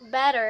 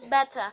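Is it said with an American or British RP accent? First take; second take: American; British RP. First: It is said with an American accent. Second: It is said with a British RP accent.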